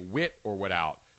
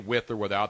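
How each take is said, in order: First: The phrase is said in a Philadelphia accent. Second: The phrase is said in a standard accent. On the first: "They just say with or without" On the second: "people don't say with or without"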